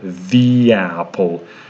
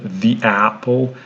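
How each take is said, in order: First: A y sound joins the two words. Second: The two words are separated without a y sound. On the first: The speaker calls it right. "Here we can perfectly hear this sound Y between the two words" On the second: The speaker calls it wrong. "it would really sound unnatural"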